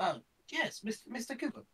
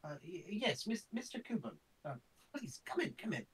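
First: High put-on old man voice; a first try at the old scholar's voice. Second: Put-on high quavering old man voice; a second try at the scholar's voice. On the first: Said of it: "No, that's not it". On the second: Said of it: "I can't find the voice".

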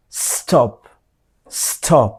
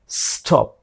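First: স্টপ with a clean s and a crisp final p; correct stop. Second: স্টপ said the wrong way; স্টপ with a weak final p, a bit softer; wrong stop. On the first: Teacher modeling the right স্টপ. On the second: Teacher showing the স্টপ to avoid. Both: Shown as a demonstration. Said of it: "এভাবে বলা যাবে না".

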